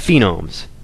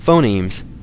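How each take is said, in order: First: The word is said in an altered form. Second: The word is said in its standard form. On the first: The speaker calls it wrong. "she said phenomes" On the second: The speaker calls it right. "she didn't say phonemes"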